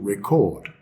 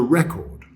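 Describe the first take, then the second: First: The stress is on the second syllable. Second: The stress is on the first syllable. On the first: It names an action you do. "the thing you do is to record" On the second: It names a thing you buy. "The thing you buy is a record"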